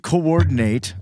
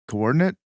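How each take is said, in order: First: The word carries the stress pattern of the verb. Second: The word carries the stress pattern of the noun. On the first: It means to bring about an end. "to coordinate oblivion is to bring about demise" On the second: It means destroying the place where you are. "if you change the emphasis on the syllable"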